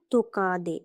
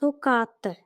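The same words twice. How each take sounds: First: তোকাদে with a voiced d; wrong D form. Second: তোকাতে with an unvoiced t; correct T form. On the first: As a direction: soften the last t to d in তোকাদে. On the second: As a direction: keep the last t hard in তোকাতে. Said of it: "not তোকাদে". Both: Shown as a demonstration.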